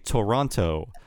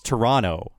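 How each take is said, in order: First: The second t is said as a clear t. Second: The second t is softened toward a d. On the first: The speaker is a foreigner. The speaker calls it wrong. "the dead giveaway that you're a foreigner" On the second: The speaker is Canadian. The speaker calls it right. "They kind of muffle that T into a D"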